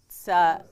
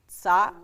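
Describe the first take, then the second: First: The syllable is said with a glottal stop. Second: The syllable is said with a glottal stop.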